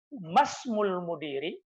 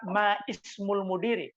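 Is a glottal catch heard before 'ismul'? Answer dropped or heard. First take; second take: dropped; heard. First: The words run together with no glottal catch. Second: A glottal catch separates 'ma' from 'ismul'. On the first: The speaker calls it right. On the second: The speaker calls it wrong. "Jadi bukan lagi ma, ma ismul mudiri. Karena ini hamzatul wasal"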